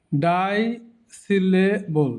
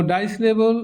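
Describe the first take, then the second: First: ডাইসিলেবল very slowly, piece by piece; broken into syllables. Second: Said in the usual way. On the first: Shown as a demonstration. Teacher breaking the word for learners, ডাইসিলেবল slowly in pieces. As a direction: stretch ডাইসিলেবল with gaps between syllables. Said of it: "ভেঙে ভেঙে দেখানো হয়েছে". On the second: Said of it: "এমনি উচ্চারণ করব".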